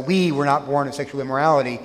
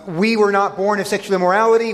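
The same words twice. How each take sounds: First: "We" leaned on at the start, the rest quicker; stress on WE. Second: Said in the usual way. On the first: Shown as a demonstration. Preacher stressing "We" as the crowd's reply to Jesus. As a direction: open with a firm "We". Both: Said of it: "there's an emphasis on the "we".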